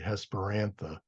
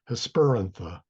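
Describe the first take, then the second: First: The stress is on the first syllable, Hes. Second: The stress is on the second syllable, per. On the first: It follows the meaning of the word's two parts. "Hesper means evening and antha means flower. So that's why I want to say Hesperantha" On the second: It follows the rule for Latin names. "the rule of the third syllable is Hesperantha"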